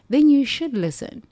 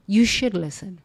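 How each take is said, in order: First: "then" hit high, pitched up; urgent insistence; emphatic. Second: Said in the usual way. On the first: Real, not acted. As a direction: lean hard on "then you should listen".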